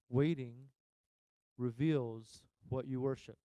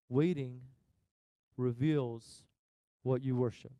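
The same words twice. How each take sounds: The two takes are said the same way.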